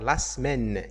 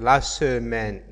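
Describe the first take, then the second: First: The first e of semaine is silent. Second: The first e of semaine is pronounced. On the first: The speaker calls it right. "il ne le prononce pas. Il va dire la semaine" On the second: The speaker calls it wrong. "la plupart la prononcent, on dit la semaine"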